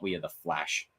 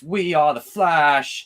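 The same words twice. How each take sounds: First: Said in the usual way. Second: Slow, louder dramatic delivery; mock heroic proclamation; quoted line. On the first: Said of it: "It's not". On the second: Quoting Jacob's favorite Flash line, mock heroic and slow. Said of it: "Jacob's favorite Flash line is".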